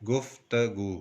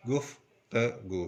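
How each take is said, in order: First: Said in the usual way. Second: Slowly, syllable by syllable. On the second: Shown as a demonstration. Teacher breaking गुफ्तगू into its sounds slowly. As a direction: stretch गुफ्तगू out slowly as गुफ त गू. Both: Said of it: "Aahista Aahista पढ़ें".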